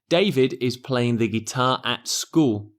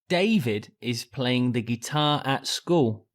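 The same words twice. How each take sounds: First: The stress falls on the word school. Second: The stress falls on the word David. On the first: It answers where David is playing. "I would change the stress to the location" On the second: It answers who is playing the guitar. "I make David the stressed word in the sentence"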